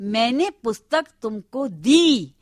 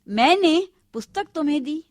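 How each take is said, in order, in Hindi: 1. "दी" पर जोर है। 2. "मैंने" पर जोर है। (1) "यानी दी ही नहीं" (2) "मैंने पर जोर है"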